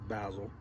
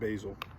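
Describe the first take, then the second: First: The word is said in a British way. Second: The word is said in a North American way. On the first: "Our friends across the water pronounce it basil" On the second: "in Canada and America we pronounce it basil"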